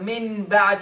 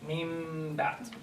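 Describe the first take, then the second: First: The n sound is kept clearly before the b. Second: The n sound turns into an m before b. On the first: The speaker calls it wrong. "you don't have to say min bad" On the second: The speaker calls it right. "you have to transfer the noon into a meme"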